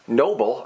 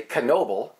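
First: Said in the usual way. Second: Knoble with an extra "kuh" before "noble"; K sounded in Knoble. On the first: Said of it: "or as I like to say". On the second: Shown as a demonstration. Host joking there's a K in it, Knoble said "kuh-NO-bul". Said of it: "'Cause there's a K in it".

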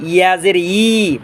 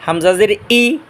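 First: "ইয়া জের ই" slowly with a y glide into long i; mid-tongue "yi" in "ইয়া জের ই"; mid-palate YA. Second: "হামজাজের ই" with clean glottal onset on i; deep-throat HAMZA. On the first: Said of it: "জিব্বার মাঝখান". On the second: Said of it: "গলা শুরু থেকে". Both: Shown as a demonstration.

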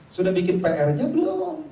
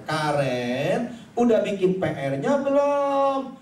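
First: Said in the usual way. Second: Stretched, raised-voice fatherly call; louder repeated asking. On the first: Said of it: "saya bilang begini sama dia". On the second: Acted. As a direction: call it out slowly to an unresponsive child. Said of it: "lebih kencengin lagi suaranya".

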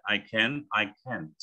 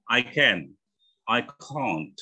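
First: American can't with the vowel of can; American can't, lightly ending on T; American accent. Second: British can't with a long ah; British accent. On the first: Teacher shows the T is there, American accent. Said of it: "Kalau American, memang bunyinya T ya". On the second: Teacher contrasts can and can't, British accent. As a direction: say can't as "cahnt", British style. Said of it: "Enggaknya gitu kalau British". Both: Shown as a demonstration.

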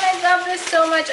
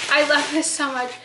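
First: I love this so much, high and loud; squealed excitedly. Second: Said in the usual way. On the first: Real, not acted. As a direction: gush it out, voice way up. Repeats, first take squealed.

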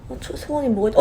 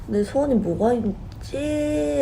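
First: Quick, panicky, tumbling words; flustered rush. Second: Slow, drawn-out wondering to herself; slow musing. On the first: Rushing her wish as the candle melts, flustered. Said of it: "초를 보면 너무 막 완전 녹고 있어서". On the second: Wondering what to wish for before the cake, slow. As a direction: ponder it at leisure. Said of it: "라고 생각하다가". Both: Retold or imitated.

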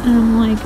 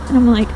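The two takes are said the same way.

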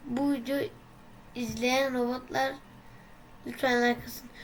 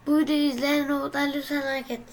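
First: Said in the usual way. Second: Quick, louder rushed plea; fast loud plea. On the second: Shown as a demonstration. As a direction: rattle it off fast. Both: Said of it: "Bonus üç görev".

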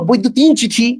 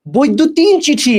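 First: Said in the usual way. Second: বৈদ্যুতিন চিঠি read slowly, word by word; teacher slowly reads out the term বৈদ্যুতিন চিঠি as a quiz. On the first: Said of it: "এটা কি জানো?". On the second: Shown as a demonstration. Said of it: "এটা না, এটা কি জানো?".

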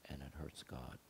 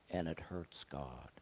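First: Much softer, almost under the breath; hushed repeat. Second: Said in the usual way. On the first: Real, not acted. Preacher repeating to the congregation, hushed and heavy. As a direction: let "And it hurts God" sink to a hush.

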